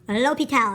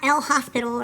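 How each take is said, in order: First: It does not sound like the word hospital. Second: It sounds like the English word hospital. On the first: The speaker calls it right. "the correct pronunciation" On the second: The speaker calls it wrong. "Not El Hospital"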